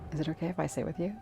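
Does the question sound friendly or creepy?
creepy. It sounds creepy and suggestive.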